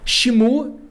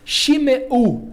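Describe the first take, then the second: First: The m runs straight into the u. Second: A short e sound separates m and u. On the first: This is how it would read without that letter. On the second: This is how it reads with the letter present.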